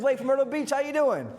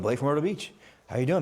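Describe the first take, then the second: First: It is said with lively, confident, friendly energy. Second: It is said in a flat, hesitant, low-energy way. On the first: The caller sounds like a close friend. The speaker calls it right. "my tonality leads that, right? And my energy leads that" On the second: The caller sounds unsure and uninvested. The speaker calls it wrong. "A lot of people blow it"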